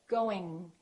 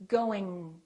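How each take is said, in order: No difference in how they are said.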